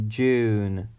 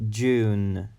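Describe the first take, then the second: The two takes are said the same way.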